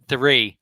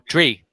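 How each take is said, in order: First: It begins with a th sound, tongue forward. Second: It begins with a t sound, tongue back. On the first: The speaker calls it right. "remember that tongue needs to come forward here" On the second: The speaker calls it wrong. "you tend to say tree or tree. ... you're pulling your tongue back a bit"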